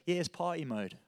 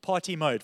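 First: Put-on laid-back British accent, softly delivered; casual British "party mode" with a swallowed t; smug, easygoing British driver accent; British racing driver accent. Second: Said in the usual way. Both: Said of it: "Party mode for South Africans".

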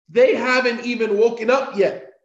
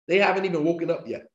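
First: Louder, higher, driving the whole "They haven't even woken up yet" home; emphatic repeat. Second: Said in the usual way. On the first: Real, not acted.

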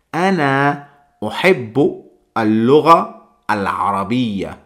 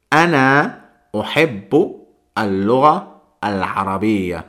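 First: The Arabic sentence spoken carefully; Arabic phrase. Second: Ana uhibbu al-lugha al-arabiyya repeated whole and clear; the Arabic sentence once more; Arabic phrase. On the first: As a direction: model the phrase to memorise. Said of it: "una expresión que esta os la tenéis que memorizar". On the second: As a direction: repeat the full phrase for learners. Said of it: "Así que la frase es". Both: Shown as a demonstration.

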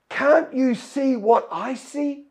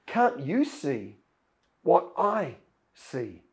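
First: Higher, slow disbelieving question; servant's baffled question. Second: Softer, lower, slow and serene; Elisha's calm reply. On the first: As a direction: ask it as if the other is blind to the danger. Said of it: "And the servant says". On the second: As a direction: gently turn the question back, fully at peace. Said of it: "And Elisha says". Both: Acted.

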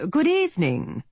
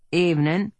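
First: Well-to-do British gentleman, pleasant tenor, pitched higher; polished, courteous British greeting; British accent. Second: Laconic Western lawman drawl; terse frontier greeting, unhurried. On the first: Briton outside greets the marshal in a polished British accent, higher. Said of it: "This accent was British". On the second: Marshal answers the knock at the door in a laconic drawl. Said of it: "Earp drawled". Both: A narrator's reading.

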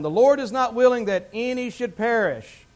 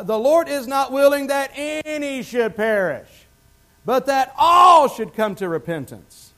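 First: Said in the usual way. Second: Slow, higher, swelling to a full shout; preached shout. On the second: Real, not acted. Preacher repeating scripture to the congregation, building to a shout. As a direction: hammer the verse home, building loud.

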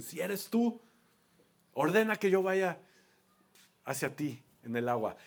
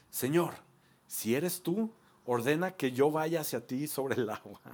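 First: Pedro dudoso, tú más agudo; doubtful Peter. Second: Said in the usual way. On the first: Retold or imitated. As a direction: dilo como quien duda y pone a prueba. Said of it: "el que le dice". (Pedro desafiando a Jesús, con duda)

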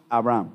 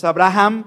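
First: Abraham said with a silent H, a-bra-AM, no H sound. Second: Abraham said with the H sounded, a-bra-HAM. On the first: Pastor gives the congregation the correct Abraham, with the H silent. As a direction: say Abraham the right way, the H left silent. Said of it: "y decimos". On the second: Pastor shows the congregation the wrong reading, with the H sounded. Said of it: "No es Abraham porque no suena J la H". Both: Shown as a demonstration.

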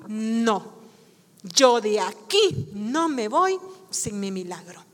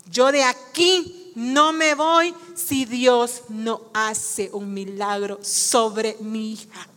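First: Low, restrained refusal; understated, determined statement; quiet resolve. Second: Very slow, weighty vow; slow, solemn declaration falling lower at the end; emphatic resolve. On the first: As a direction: hold your ground in a low voice. Woman's refusal, first quiet take. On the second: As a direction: stand your ground, spacing out each phrase. Woman's refusal repeated with emphasis. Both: Acted.

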